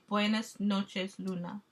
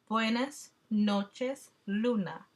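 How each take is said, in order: First: It is read at normal speed. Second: It is read slowly.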